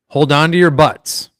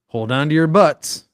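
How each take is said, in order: First: It is said flatly, without expressive inflection. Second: It is said with expressive, dramatic inflection. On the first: "I'm not going to say it with inflection" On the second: "I just said it kind of with the inflection"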